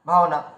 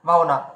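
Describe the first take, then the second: The two takes are said the same way.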